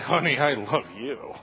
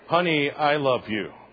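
First: It is said in an insincere, off-putting tone. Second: It is said in a plain, sincere tone. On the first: The affection is not meant and causes offense. "I'm going to be sleeping on the second floor" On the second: The affection is meant genuinely. "That's pretty straightforward"

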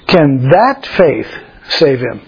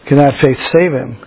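First: The word 'that' carries strong emphasis. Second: The sentence is read without special emphasis.

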